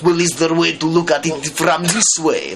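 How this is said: It is said in an evil Russian accent.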